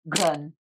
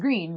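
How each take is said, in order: First: The name is said with a German pronunciation. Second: The name is said with an English pronunciation. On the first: "I'm probably gonna fail the pronunciation, but like" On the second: "the English word is green"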